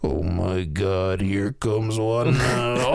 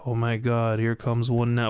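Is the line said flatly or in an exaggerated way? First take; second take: exaggerated; flatly. First: It is said in a loud, exaggerated way. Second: It is said flatly, without much energy.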